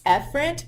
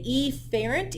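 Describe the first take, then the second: First: The first vowel is reduced in ordinary speech. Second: The first vowel is exaggerated to sound distinct. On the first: The speaker calls it right. "It's efferent" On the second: The speaker calls it wrong. "I will say efferent, even though that's not how we pronunciate it"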